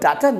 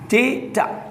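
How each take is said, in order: First: The first vowel sounds like 'ah'. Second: The first vowel sounds like 'ay'. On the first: The speaker calls it wrong. "इसको डाटा नहीं बोला जाता है" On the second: The speaker calls it right. "डेटा बोल के देखिए"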